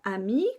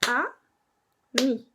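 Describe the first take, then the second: First: The word is said smoothly without a break. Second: The word is split with a pause between syllables.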